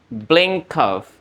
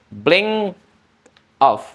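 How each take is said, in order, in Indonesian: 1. Konsonan akhir tersambung ke kata berikutnya. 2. Kata-kata itu diucapkan terpisah, tidak disambung. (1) "atau digabung" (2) "biasanya secara normal bisa diucapin dengan"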